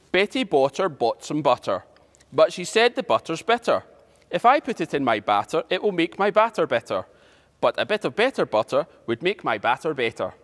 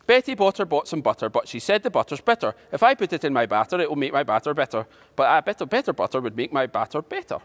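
First: Careful, measured phrases with pauses between; slow tongue twister. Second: Faster, run-on recitation with hardly a pause; quick tongue twister. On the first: Teacher introduces today's tongue twister to pupils, slowly. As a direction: take it line by line, unhurried. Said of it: "go through it slowly". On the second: Teacher has a go at the twister, quickly. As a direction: rattle through the tongue twister. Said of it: "then try and say it quickly". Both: Shown as a demonstration.

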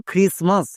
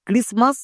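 First: "খ্রিসমাস" with an aspirated KH; "খ্রিসমাস" starting on a breath-puffed খ; KH variant. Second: "ক্রিসমাস" with an unaspirated K; "ক্রিসমাস" starting on a plain hard ক; K variant. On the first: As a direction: say "খ্রিসমাস" as khris-mas, T silent. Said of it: "কখনো কখনো খোয়ের মতো করতে হয়". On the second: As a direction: say "ক্রিসমাস" as kris-mas, T silent. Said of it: "দুটোই কিন্তু সঠিক উচ্চারণ". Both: Shown as a demonstration.

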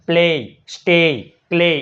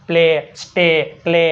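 First: પ્લે, સ્ટે, ક્લે with the E sliding into a Y glide; wrong reading. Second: પ્લે, સ્ટે, ક્લે with one steady long E; corrected reading. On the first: Teacher showing pupils what to avoid, પ્લે, સ્ટે, ક્લે gliding to "ey". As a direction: end પ્લે, સ્ટે, ક્લે on "ey" instead of a pure E. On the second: Teacher correcting pupils, પ્લે, સ્ટે, ક્લે on a pure E. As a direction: hold the E in પ્લે, સ્ટે, ક્લે without a Y glide. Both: Shown as a demonstration. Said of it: "એમ નહીં".

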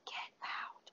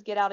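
First: Unvoiced breathy whisper. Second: Slightly louder retold ghost voice; a touch louder. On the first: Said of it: "that whisper of". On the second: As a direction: push it a little louder, no more. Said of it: "the voice does get a little louder".

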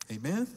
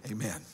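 First: Rising call for amen; Amen with a rising question tune; asking Amen. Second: Falling, settled Amen; Amen said soft with a falling tune; answering Amen. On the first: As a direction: toss it out as a question to the room. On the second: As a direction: answer it yourself, quietly and firm. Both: Shown as a demonstration.

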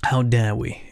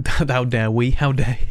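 First: Hushed indignant whisper. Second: Louder, indignant robot; mock-offended robot protest. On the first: Pretend. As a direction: whisper the outrage as the robot. Robot character whispering indignantly. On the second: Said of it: "We're a sweet and kind robot".

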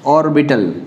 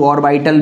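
First: Said in the usual way. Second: ऑर्बिटल with a long 'eye' vowel, or-BY-tal; alternative pronunciation. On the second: Shown as a demonstration. Teacher showing students the other accepted form, ऑर्बिटल said or-BY-tal. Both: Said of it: "जो भी उच्चारण करना चाहो".

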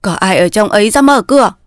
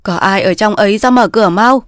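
First: Mildly heated call at the gate; impatient calling. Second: Mild call at the gate. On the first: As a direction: demand entry with growing impatience. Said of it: "Ông già càng nóng nảy". (nóng nảy gọi cửa) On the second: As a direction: call for someone to open up. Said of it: "vừa gõ cổng vừa gọi". (gọi cửa) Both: Acted.

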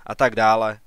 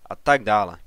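First: First "A tak dále" pushed out louder; first of two scornful "a tak dále"; dismissive, louder. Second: Second "a tak dále" dropping down, tired; weary scornful trailing repeat; dismissive, falling away. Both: Acted. Father waves off son's report.

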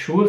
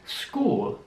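First: "Schul" with German sch sound; "Schul" said the German way, sch at start; "Schul" as in German Schule; wrong German Sch. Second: "School" with s-k start, slow; "School" said slowly with sk; "School" English way, s and k. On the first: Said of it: "Also nicht Schul". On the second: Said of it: "sondern School". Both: Shown as a demonstration.

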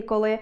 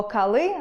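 First: Said in the usual way. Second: «кали» with A for unstressed O; wrong vowel. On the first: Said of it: "замість". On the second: Shown as a demonstration. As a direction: say «кали», a clear A in the first syllable. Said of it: "це буде порушенням орфоепічної норми".

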